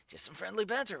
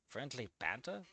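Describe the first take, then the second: First: Said in the usual way. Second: Much lower and softer, rising disbelief; incredulous repeat. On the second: Real, not acted. Reviewer scoffing at the fic's excuse, incredulous. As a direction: repeat it as if you can't believe it.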